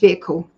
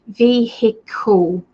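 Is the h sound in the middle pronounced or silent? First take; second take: silent; pronounced. First: The middle h sound is completely silent. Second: The middle h sound is clearly pronounced. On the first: "Here in England, it's always vehicle, just vehicle. The H is completely silent" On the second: "Americans sometimes say vehicle, which is the right way of saying it because you've got the H there"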